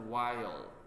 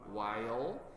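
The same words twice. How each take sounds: Both takes have the same delivery.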